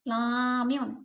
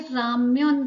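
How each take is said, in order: First: The word begins with a light L sound. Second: The word begins with a clear R sound. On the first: "ल का हल्का सा साउंड निकल रहा है" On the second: "यहाँ पे राम्यन तो लिखा है"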